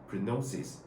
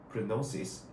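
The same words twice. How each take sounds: Both takes have the same delivery.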